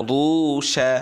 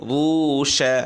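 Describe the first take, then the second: No difference in how they are said.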